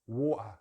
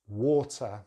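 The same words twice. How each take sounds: First: The middle T is a glottal stop. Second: The middle T is a full, strong T. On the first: "if we use a glottal T" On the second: "the regular uh, strong T"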